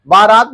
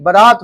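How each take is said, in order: First: बारात with a long aa in the first syllable; wrong pronunciation. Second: बारात said ba-raat, first vowel short; correct pronunciation. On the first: Teacher shows students the faulty word, बारात with long first aa. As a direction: say बारात as baa-raat, both vowels long. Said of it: "नहीं". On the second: Teacher corrects the word for students, बारात with short first vowel. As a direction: say बारात with a quick short ba, then long raat. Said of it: "होता है". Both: Shown as a demonstration.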